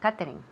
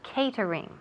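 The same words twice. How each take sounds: First: It is said with a Spanish-style pronunciation. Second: It is said with an English pronunciation. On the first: The speaker calls it wrong. "a lot of people say catering" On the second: The speaker calls it right. "in English it's catering"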